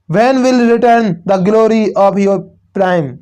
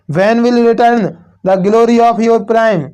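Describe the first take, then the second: First: Very slow, drawn-out reading of a verse line; teacher reciting a line of poetry, slow and deliberate; slow poem recital. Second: Very slow verse reading, drawn out word by word; teacher repeats the poem line slowly for the class; slow poem recital. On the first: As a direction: read it like a poem to the class, slowly. Teacher reads poem line slowly. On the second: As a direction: dwell on every word of the line. Teacher reads poem line again. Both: Shown as a demonstration.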